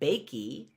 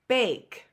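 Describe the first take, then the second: First: The word ends with an added ee sound. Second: The word ends on the k with no vowel. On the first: The speaker calls it wrong. "I don't pronounce it bakey" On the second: The speaker calls it right. "No, it's bake"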